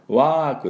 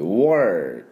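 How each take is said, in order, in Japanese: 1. 母音は普通で、r音化はしていません。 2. 母音はr音化していて、舌を巻いています。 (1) "work でなく" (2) "OR もcheers だから"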